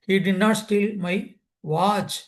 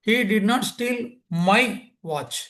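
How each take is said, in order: First: The stress falls on the word watch. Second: The stress falls on the word my. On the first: Something other than the watch was stolen. "அவன் watch திருடல, வேற ஒன்று திருடியிருக்கான்" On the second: A different person's watch was stolen. "இந்த மைங்கிற வார்த்தைக்கு importance கொடுத்தேன்"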